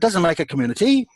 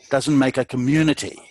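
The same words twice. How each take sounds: First: The pitch rises at the end. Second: The pitch falls at the end.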